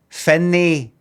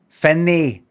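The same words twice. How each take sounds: Both takes have the same delivery.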